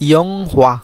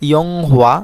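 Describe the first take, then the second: No difference in how they are said.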